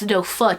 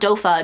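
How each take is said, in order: First: The word ends with a clear 'foot' sound. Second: The word ends in a weak 'uh' sound. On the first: The speaker calls it right. "it's Dofa, you fool" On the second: The speaker calls it wrong. "it's not Dofa"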